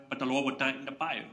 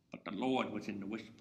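First: Said in the usual way. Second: Hushed. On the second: Acted. Answer given in a hush.

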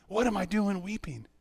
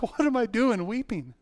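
First: Softer, still high self-questioning; bewildered, softer. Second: High, drawn-out self-questioning; bewildered. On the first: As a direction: repeat it quietly to yourself, puzzled. Repeats the question to himself, softer. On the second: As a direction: ask yourself in slow, high-pitched disbelief. Retold bewilderment at his own weeping. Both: Retold or imitated.

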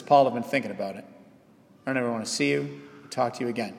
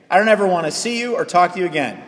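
First: Soft, hurried, low-key brush-off; quiet rejection. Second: Acted-out blunt dismissal, voice slightly raised; mildly heated brush-off; firm rejection. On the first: Retold or imitated. Susan telling Paul she is leaving him, quiet rejection. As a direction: say it fast and hushed, as a personal blow. Imagined Susan gently breaks it off. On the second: Churchgoer to pastor in the hallway, firm mock rejection.

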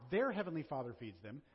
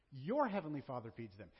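First: Their stressed as the wrong word in Their heavenly Father feeds them; the misreading with Their pushed forward; wrong pronoun shown. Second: Your said with weight and a falling tune, the rest lower; Your heavenly Father, Your emphasised; stress on Your. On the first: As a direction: lean on Their to show the rejected reading. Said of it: "Look at the pronoun. Not". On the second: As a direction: hit Your as the correct pronoun. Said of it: "Look at the pronoun". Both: Shown as a demonstration.

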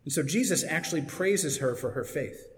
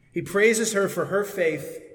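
First: Said in the usual way. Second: Praises her for her faith said slower and higher, leaning on praises; slow down and press on praises, like a preacher driving it home; emphatic restatement. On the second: Shown as a demonstration.

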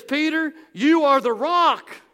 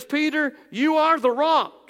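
First: "you" hit hard, slow and loud; stressed proclamation. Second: Higher and louder, ringing out "Peter, you are the rock."; proclaiming. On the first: Preacher repeating Jesus' words to Peter, heavy stress on "you". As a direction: lean hard on "you" and let it land. Repeats the line with more weight. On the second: Preacher voicing Jesus to Peter, loud proclamation. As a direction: call it out across the church. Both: Acted.

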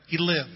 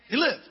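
First: Said in the usual way. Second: Lived repeated with a higher, louder push; triumphant repetition of lived. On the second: Real, not acted.

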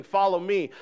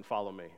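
First: Higher, louder "Follow me."; proclaimed command. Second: Lower, softer "Follow me."; soft command. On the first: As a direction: ring out "Follow me." to the room. God's command proclaimed aloud. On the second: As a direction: say "Follow me." low and hushed. God's command, said softly. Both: Acted.

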